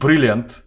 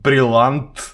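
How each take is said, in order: First: The word is said with English pronunciation. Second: The word is said with French pronunciation. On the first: "Brilliant is in the English pronunciation" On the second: "it's a French word"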